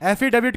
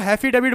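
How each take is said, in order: First: The word starts with a vowel. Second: The word starts with an h sound. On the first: The speaker calls it right. "पहले एफिडेविट को हैफिडेविट बोल रहे थे" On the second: The speaker calls it wrong. "पहले एफिडेविट को हैफिडेविट बोल रहे थे"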